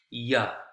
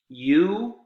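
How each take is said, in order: First: The vowel is reduced, sounding like ya. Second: The word has its full vowel, you.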